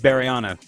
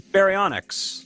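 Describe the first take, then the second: First: The final x sound is left silent. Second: The final x sound is pronounced. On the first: "If the X is silent" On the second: "I want to say baryonyx"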